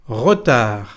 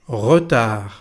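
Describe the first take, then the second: Both takes have the same delivery.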